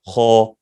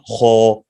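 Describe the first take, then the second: No difference in how they are said.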